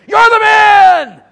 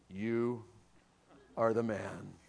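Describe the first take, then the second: First: It sounds like a fiery camp meeting preacher. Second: It sounds like a calm, measured doctor.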